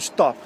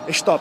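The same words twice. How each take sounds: First: The word begins directly with the s sound. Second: An e vowel sound comes before the s. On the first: "eles não falam stop" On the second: "Eles botam E na frente"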